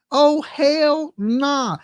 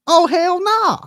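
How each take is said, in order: First: Very slow, stretched hell nah; slow, emphatic dismissal; drawn-out refusal. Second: Higher, punchy hell nah; outraged dismissal; emphatic refusal. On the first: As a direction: drag each word out. Repeated slowly. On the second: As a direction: shut it down hard. Refusing the water bill. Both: Real, not acted.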